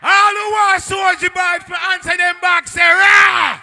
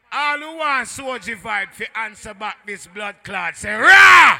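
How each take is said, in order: First: High, very loud MC holler all through; rallying yell at top volume from the first word; full-force crowd shout. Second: Raised MC call bursting into a shouted "Rah"; crowd call-out. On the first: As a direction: bellow it to the whole dance. MC repeats call at full force. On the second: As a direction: rouse the crowd, exploding on the last word. MC rallying crowd, first call. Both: Real, not acted.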